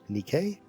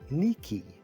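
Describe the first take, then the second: First: The name is pronounced the Italian way. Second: The name is pronounced the Greek way. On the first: "in Italian they pronounce it as" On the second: "in its original Greek it's"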